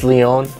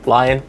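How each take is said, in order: First: The name sounds like the name Leon. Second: The name sounds like the English word lion. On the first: The speaker calls it right. "It's Leon" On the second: The speaker calls it wrong. "call it Arcane Lion"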